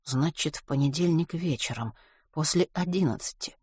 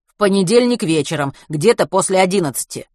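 First: Soft musing to oneself; pondering. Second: Loud, matter-of-fact reply; loud answer. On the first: Matvey alone recalling when the comet passed, quietly pondering. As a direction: repeat it quietly, working it out. Матвей размышляет про себя. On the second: Driver telling a stranger when it passed, loud answer. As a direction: answer out loud to someone standing by. Водитель громко отвечает на вопрос. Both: A narrator's reading.

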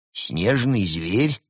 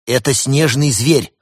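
First: Slow, rising incredulous question; surprised. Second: Higher, louder impatient exclamation; blurted out. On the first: Host echoes the cat's revelation, surprised. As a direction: echo it slowly in disbelief. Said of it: "удивился Марио". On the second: Cat tired of hesitations reveals the secret, blurting. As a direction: blurt it out, fed up with waiting. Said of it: "выпалил Константин, которому надоели заминки". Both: A narrator's reading.

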